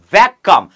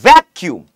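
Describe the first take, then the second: First: ভ্যাকাম loud, ending "-kam" with a held k; spelling pronunciation. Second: ভ্যাকিউম loud and distinct, ending "-kium"; pronunciation demo. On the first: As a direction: punch out ভ্যাকাম as "VAK-kam" to show the spelling. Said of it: "ভ্যাকাম বলে উচ্চারণটা করতে পারি". (ভ্যাকাম জোরে, বানান ধরে উচ্চারণ) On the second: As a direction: punch out ভ্যাকিউম as "VAK-kium". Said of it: "বলতে হবে উচ্চারণ করে". (ভ্যাকিউম জোরে, স্পষ্ট উচ্চারণে) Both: Shown as a demonstration.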